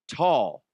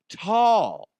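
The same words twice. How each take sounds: First: Said in the usual way. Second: Tall said higher and louder; stress on tall. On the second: Real, not acted. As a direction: punch the second tall. Repeated word for emphasis.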